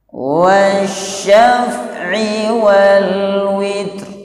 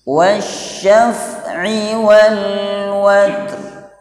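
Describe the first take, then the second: First: The last word has an i vowel. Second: The last word has an a vowel. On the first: "bisa juga dibaca kasrah" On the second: "Wawunya bisa dibaca fathah"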